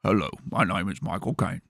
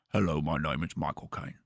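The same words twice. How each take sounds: First: Michael Caine impression. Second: Lower, softer attempt at a Michael Caine voice; a shaky, lowered stab at Michael Caine; failed celebrity impression, a little lower. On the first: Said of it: "get good at a Michael Caine impression". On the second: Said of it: "I can't do it".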